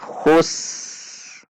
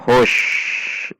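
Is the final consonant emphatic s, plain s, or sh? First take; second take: plain s; sh. First: It ends with a plain, light s sound. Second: It ends with an sh sound. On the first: The speaker calls it right. "Namun ini khus" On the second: The speaker calls it wrong. "Juga bukan hush, itu shin"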